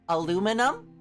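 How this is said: It is said with four syllables, American style. The speaker calls it wrong. "that's an American way of saying it"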